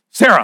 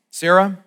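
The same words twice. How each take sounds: First: Even louder, sharper call of the name; harsh. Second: A sharp, loud call of her name; harsh. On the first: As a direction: snap the name out. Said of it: "I don't know why I said it like that". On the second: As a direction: bark the name like a scolding. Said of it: "that's already a little harsh". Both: Pretend.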